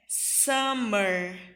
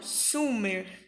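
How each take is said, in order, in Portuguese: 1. A primeira vogal soa como um 'a' aberto. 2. A primeira vogal soa como um 'u' arredondado. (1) "Verão é summer" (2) "e não summer"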